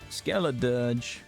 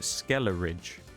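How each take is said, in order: First: The name ends with a 'dirge' sound. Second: The name ends with a 'ridge' sound. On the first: The speaker calls it right. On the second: The speaker calls it wrong.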